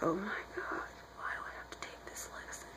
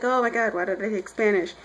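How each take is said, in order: First: Barely audible, unvoiced grumbling; whispered complaint. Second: Said in the usual way.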